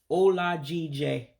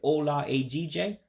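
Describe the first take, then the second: First: The vowel before the second word is dropped. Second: The vowel before the second word is kept. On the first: This is how everyday speakers say it. The speaker calls it right. "you get rid of that first E, you drop it" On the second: This would probably still be understood. The speaker calls it wrong. "They probably would still understand it if you said"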